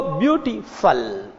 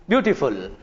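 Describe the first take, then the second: First: ब्यूटीफुल said slowly, each syllable drawn out; slow careful ब्यूटीफुल as the dictionary gives it; ब्यूटीफुल spelled out slowly, dictionary style; dictionary pronunciation. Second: Said in the usual way. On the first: Shown as a demonstration. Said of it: "dictionary का उच्चारण देखते हो". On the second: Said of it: "अब जो ब्यूटीफुल बोलते हो".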